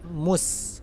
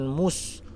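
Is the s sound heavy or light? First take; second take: light; heavy. First: The s sounds light and open, drawn out. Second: The s sounds heavy, with the tongue raised. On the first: The speaker calls it right. "tapi mus" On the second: The speaker calls it wrong. "jangan mus"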